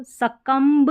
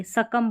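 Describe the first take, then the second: First: सकम्ब with the final b wrongly sounded; mispronounced सकम्ब. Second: सकम ending on m, no b; silent b. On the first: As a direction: voice the b ending सकम्ब. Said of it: "सकम्ब नहीं बोलेंगे". (सकम्ब में ब बोलकर ग़लत उच्चारण) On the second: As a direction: stop सकम at the m. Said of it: "उस तक ही बोलना है". (सकम, बिना ब के) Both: Shown as a demonstration.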